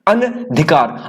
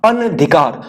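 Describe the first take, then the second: Both takes have the same delivery.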